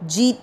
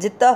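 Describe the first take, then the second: First: The vowel after the j is long. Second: The vowel after the j is short. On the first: The speaker calls it wrong. "जीत नहीं करना, जी छोटा है" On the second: The speaker calls it right. "जी छोटा है, जित त पे जोर दे रहे हैं"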